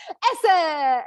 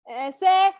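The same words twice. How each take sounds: First: A hint of the delighted daughter, higher and louder; excited toddler. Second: A hint of a toddler asking, pitched higher and louder. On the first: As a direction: lightly voice the daughter finding the right clothes. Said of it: "she's gonna go so excited". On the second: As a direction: lightly voice the daughter holding up clothes and asking. Toddler rejecting clothes.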